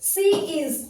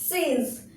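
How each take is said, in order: First: It is said as two separate full words. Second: It is said as one contracted word. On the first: "ऐसे तो हम लोग बोलते हैं generally इसको" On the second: "कॉन्टेक्शन में कैसे बोलेंगे"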